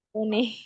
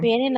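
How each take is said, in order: First: The first vowel sounds like 'oh'. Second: The first vowel sounds like 'eh'. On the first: The speaker calls it right. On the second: The speaker calls it wrong.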